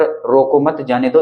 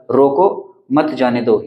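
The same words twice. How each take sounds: First: "रोको मत" as one unit, then "जाने दो"; slowly, group मत with रोको, break after it; measured reading with the comma after मत; pause after मत. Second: "रोको", long break, then "मत जाने दो"; measured reading with the comma after रोको; pause after रोको. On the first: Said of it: "इसका मतलब ये हो गया कि इसको रोको मत". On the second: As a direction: slowly, stop after रोको and join मत to जाने दो. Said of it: "यहाँ पर हमने अल्प विराम लगा दिया". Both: Shown as a demonstration.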